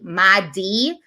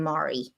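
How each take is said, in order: First: The middle consonant sounds like a D. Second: The middle consonant sounds like an R. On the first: The speaker calls it right. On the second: The speaker calls it wrong.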